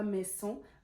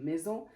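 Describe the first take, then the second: First: The middle consonant is a hissing s sound. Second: The middle consonant is a buzzing z sound. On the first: The speaker calls it wrong. "elle se prononce pas s. Euh, faites attention à ça, c'est pas maison" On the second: The speaker calls it right. "Elle se prononce z comme maison"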